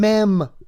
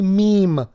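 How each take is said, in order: First: The vowel is a short 'e', rhyming with 'them'. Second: The vowel is a long 'ee', rhyming with 'team'. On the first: This mocks someone else's mispronunciation. The speaker calls it wrong. "mem when he was trying to say meme" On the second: This is the intended word. The speaker calls it right. "trying to say meme"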